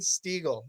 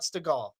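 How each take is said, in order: First: The name is said as Steegel. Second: The name is said as Stegall. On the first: The speaker calls it right. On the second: The speaker calls it wrong.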